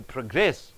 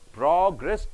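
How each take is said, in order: First: The stress is on the last syllable. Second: The stress is on the first syllable. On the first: It is used as a verb. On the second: It is used as a noun.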